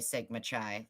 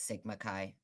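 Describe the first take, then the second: First: The last word sounds like the tea chai. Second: The last word does not sound like chai. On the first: The group is mocked as soft. The speaker calls it wrong. "I say Sigma Chai, like chai latte" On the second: The name is said the usual way. The speaker calls it right. "I know how to pronounce it properly"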